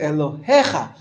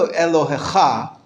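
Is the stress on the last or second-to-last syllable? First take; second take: second-to-last; last. First: The stress is on the second-to-last syllable. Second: The stress is on the last syllable. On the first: The speaker calls it right. "you say Elohecha. If you look under the hey, in that word, there's a little line" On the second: The speaker calls it wrong. "you don't say Elohecha"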